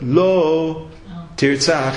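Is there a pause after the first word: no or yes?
yes. There is a pause after the first word. Killing is forbidden, but sometimes permitted. "there's a pause after the word Lo"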